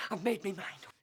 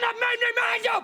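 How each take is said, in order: First: Low, soft grim statement; quiet resolve. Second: High, loud final declaration; shouted resolve. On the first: Man telling his friend his mind is made up, quietly. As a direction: murmur it to yourself, decided. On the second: Man telling his friend his mind is made up, shouting. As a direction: bellow the decision at him. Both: Acted. Quiet then shouted repeat.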